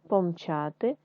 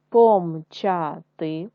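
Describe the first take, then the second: First: Said in the usual way. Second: Помчати spelled out slowly, syllable by syllable; slow syllable reading. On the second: Shown as a demonstration. Teacher reading помчати to pupils in syllables, slow. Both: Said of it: "читаємо з вами слова".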